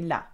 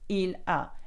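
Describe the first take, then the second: First: The two words are run together into one. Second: The two words are said clearly apart. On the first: This is how native speakers casually say it. "They would say la" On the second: Each word is made clear for learners. "I would stick with il a"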